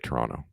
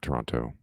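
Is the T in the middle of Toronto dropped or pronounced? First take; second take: dropped; pronounced. First: The middle T sound is dropped. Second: The middle T sound is clearly pronounced. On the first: The speaker is from Toronto. The speaker calls it right. "we say Toronto, we don't pronounce the T" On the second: The speaker is not from Toronto. The speaker calls it wrong. "not Toronto"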